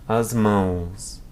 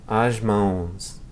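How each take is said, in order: Both takes have the same delivery.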